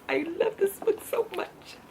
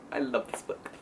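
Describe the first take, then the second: First: Much higher, gushing squeal; high excited fangirl gush. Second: Breathy whispered confession of love; hushed devoted whisper; whispered gush. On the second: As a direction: whisper it like a secret crush. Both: Real, not acted. Gushing over favorite book.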